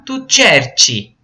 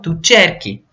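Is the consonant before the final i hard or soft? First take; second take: soft; hard. First: The c before i is a soft ch sound. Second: The c before i is a hard k sound. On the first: The speaker calls it wrong. "vai ficar tu cerci. E não é isso" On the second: The speaker calls it right. "um som de K"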